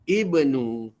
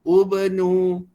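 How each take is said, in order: First: The first vowel is an i sound. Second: The first vowel is a u sound. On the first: The speaker calls it right. "Dia kekal dengan kasrah sahaja" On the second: The speaker calls it wrong. "Tidak dibaca dengan ubnu. Bukan ya"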